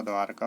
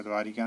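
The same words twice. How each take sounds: First: द्वारका without an "i", dwaar-ka; correct pronunciation. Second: द्वारिका with an "i" after the "r"; wrong pronunciation. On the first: Teacher gives the right form, द्वारका without "i". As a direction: join "r" straight to "ka" in द्वारका. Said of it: "होता है". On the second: Teacher voices the error, extra "i" in द्वारिका. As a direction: say "dwaa-ri-ka" for द्वारिका. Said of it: "नहीं होता". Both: Shown as a demonstration.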